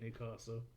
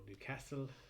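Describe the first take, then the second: First: It is said the southern English way. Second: It is said the local northern way. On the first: This is how someone from the south says it. "even if I do pronounce it wrong, being down in the south" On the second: This is how the locals want it said. "as you like to be called Newcastle"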